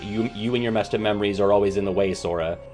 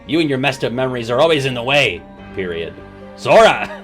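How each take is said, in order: First: Sora flows on as the end of the sentence. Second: The sentence stops fully before Sora is said. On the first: The speaker calls it right. "you know that that should be" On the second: The speaker calls it wrong. "period. ... It's just so awkward"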